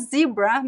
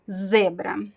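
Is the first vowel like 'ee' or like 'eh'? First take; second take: ee; eh. First: The first vowel sounds like 'ee'. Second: The first vowel sounds like 'eh'. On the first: The speaker calls it wrong. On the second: The speaker calls it right.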